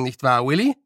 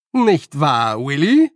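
First: Said in the usual way. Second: Raised voice, rising on the name; louder repeat. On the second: A narrator's reading. Nanny repeats her question to old man, louder. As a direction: press for agreement loudly. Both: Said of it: "wiederholte Nanny noch lauter".

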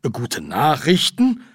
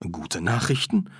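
First: Slow, higher and louder questioning; stretched, incredulous query; disbelieving. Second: Said in the usual way. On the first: Acted. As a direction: echo it as if you can't believe it. Repeats the news in disbelief.

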